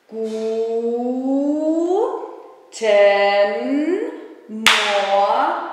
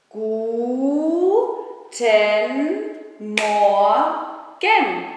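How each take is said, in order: The two takes are said the same way.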